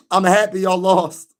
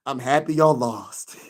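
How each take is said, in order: First: Higher, insistent taunt without laughter; emphatic gloating. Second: Slow gloat breaking into a laugh; real gleeful laughing. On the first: Streamer repeating his taunt to Knicks fans, emphatic. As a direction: declare it firmly to the losing fans. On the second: Streamer teasing losing Knicks fans, laughing. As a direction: let the last word spill into laughter. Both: Real, not acted.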